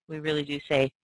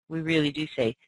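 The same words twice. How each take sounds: No difference in how they are said.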